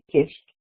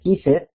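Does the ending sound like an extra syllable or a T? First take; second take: T; extra syllable. First: The ending is a short T sound, no vowel. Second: The ending is an extra syllable with a vowel. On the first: The speaker calls it right. "como si fuera una T" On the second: The speaker calls it wrong. "o kiss it ... eso no existe"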